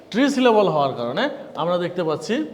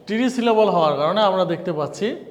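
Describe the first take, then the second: No difference in how they are said.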